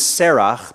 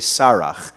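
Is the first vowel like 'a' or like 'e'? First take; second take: like 'e'; like 'a'. First: The first vowel sounds like 'e'. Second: The first vowel sounds like 'a'. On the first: This is the ordinary form of the name. "her name is Serach" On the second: This is the form used at the end of a sentence. "on the end of a sentence, we say Sarach"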